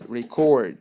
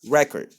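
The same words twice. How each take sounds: First: The stress is on the second syllable. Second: The stress is on the first syllable. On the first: It is used as a verb. "When I want to talk about a verb like record ... you have to say it, record" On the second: It is used as a noun. "when you have something that you write ... you have to say it record"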